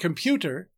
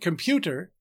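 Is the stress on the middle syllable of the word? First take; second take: yes; yes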